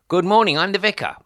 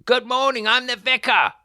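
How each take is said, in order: First: High, loud doorstep introduction; loud greeting. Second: Much higher and louder shouted greeting, straining to be heard; shouting. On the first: Retold or imitated. Vicar calling to a door that does not open. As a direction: call it through the door. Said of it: "I said". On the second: Acted. Vicar shouting louder at a door nobody opens. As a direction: bellow it at the unanswered door. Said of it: "What am I shouting for?".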